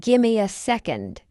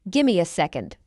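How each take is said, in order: First: Measured, careful "Gimme a second"; slow model. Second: Quicker, lower "Gimme a second"; fast English. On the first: Teacher models the phrase for learners first, slowly. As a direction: take time over "Gimme a second". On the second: Teacher trains learners' ears, fast. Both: Shown as a demonstration. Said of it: "fast English is not difficult".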